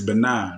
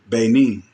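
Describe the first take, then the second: First: It is pronounced the West African way. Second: It is pronounced the American way. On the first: This is the original local pronunciation. "the way that they pronounce it in, in West Africa" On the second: This is how it is said in the States. "the way that we pronounce it over here in the States"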